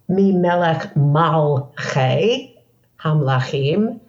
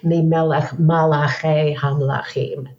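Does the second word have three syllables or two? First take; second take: two; three. First: The second word has two syllables, mal-chei. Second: The second word has three syllables, ma-la-chei. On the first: It refers to rulers or kings. The speaker calls it right. "from Melech, not from Malach" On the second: It refers to angels or messengers. The speaker calls it wrong. "people say Mimelech Malachei Hamlachim, thinking it's the same word"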